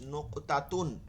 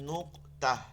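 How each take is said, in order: First: The word ends with a -tun sound. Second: The word ends with a soft -h sound. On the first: The reader continues without stopping on the word. "এর উপরে দুই পেশ" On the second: The reader stops on the word. "এইটার উপরে থামলে এটা জজম হয়ে যাইতেছে, এজন্য এটা গোল হা পড়তা"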